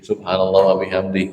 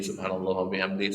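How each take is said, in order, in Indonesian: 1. Frasa ini diucapkan cukup lambat. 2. Frasa ini diucapkan sangat cepat. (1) "Kalau agak pelan-pelan" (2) "oleh cepet subhanallah cepet banget"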